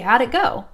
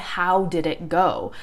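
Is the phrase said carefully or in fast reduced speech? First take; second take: fast reduced; carefully. First: It is said quickly with reduced sounds. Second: Each word is said fully and carefully.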